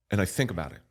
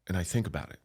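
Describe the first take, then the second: No difference in how they are said.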